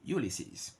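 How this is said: It is said with a British pronunciation. "In the U K, Ulysses"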